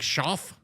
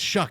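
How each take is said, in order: First: The name ends with an 'f' sound. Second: The name ends with a 'k' sound. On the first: The speaker calls it wrong. "my brain is like Schaff" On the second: The speaker calls it right. "I know it's Shuck"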